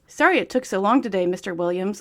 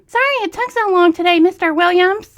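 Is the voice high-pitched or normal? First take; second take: normal; high-pitched. First: It is said in a normal voice. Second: It is said in a high-pitched voice.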